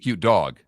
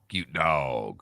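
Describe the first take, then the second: First: The word dog is said short and plain. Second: The word dog is stretched out in a drawl. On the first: The speaker calls it wrong. "You can't just say cute dog" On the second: The speaker calls it right. "You got to stretch it out when you're talking Georgia"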